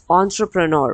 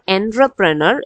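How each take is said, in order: First: The first syllable sounds like 'on'. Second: The first syllable sounds like 'en'. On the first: The speaker calls it right. "it is not spelled like O E or anything, but it is uh, spoken like entrepreneur" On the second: The speaker calls it wrong. "it is not entrepreneur"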